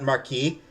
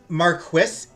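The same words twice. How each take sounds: First: It is pronounced the French way. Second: It is pronounced the British English way. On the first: "is the French pronunciation" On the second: "is the British pronunciation"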